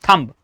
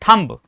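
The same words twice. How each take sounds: The two takes are said the same way.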